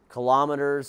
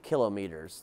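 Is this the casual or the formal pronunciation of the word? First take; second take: casual; formal. First: It is pronounced in the casual everyday way. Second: It is pronounced in the formal technical way. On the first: This is how the speaker habitually says it. The speaker calls it wrong. "I say it like that" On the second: This is the technically correct pronunciation. The speaker calls it right. "but it's technically kilometers"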